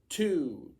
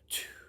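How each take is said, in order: First: The word is spoken in a normal voice. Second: The word is whispered without voice.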